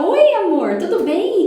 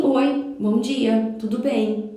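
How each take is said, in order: First: Higher, louder gushing best-friend greeting; overfriendly gushing. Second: Slow, simply courteous hello; polite greeting. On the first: Gushing at a stranger as if a super friend, higher and louder. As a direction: gush like you're instant best friends. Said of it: "criar um roteiro e virar super amiga". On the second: Polite neighbour greeting someone in the lift, slow and courteous. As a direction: greet a stranger politely and leave it there. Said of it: "Eu respondo com educação". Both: Shown as a demonstration.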